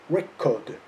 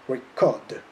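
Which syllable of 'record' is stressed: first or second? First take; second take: first; second. First: The stress is on the first syllable. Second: The stress is on the second syllable. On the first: It is used as a noun. "the noun" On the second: It is used as a verb. "the verb"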